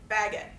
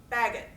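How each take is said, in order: First: The stress is on the first syllable. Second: The same.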